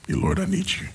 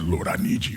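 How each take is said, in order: First: It is said in a normal voice. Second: It is said in a deep, manly voice.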